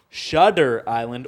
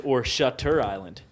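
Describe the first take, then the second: First: Shudder said with a d sound, slowly; slow Shudder, a d in the middle; Shudder with a soft d. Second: Shutter said with a clear t; Shutter, a sharp t in the middle; Shutter with a crisp t. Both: Shown as a demonstration.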